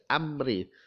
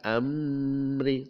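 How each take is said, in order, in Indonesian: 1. Bunyi M diucapkan dengan jelas. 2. Bunyi M kabur, tidak diucapkan dengan jelas. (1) "dibaca jelas"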